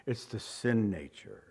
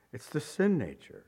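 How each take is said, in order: First: Softer answer. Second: Said in the usual way. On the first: Shown as a demonstration. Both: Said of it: "You know what he's talking about?".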